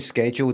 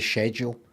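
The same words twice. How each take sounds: First: It is said with the American pronunciation. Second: It is said with the British pronunciation. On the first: "I say schedule the American way as well" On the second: "I'm supposed to say schedule"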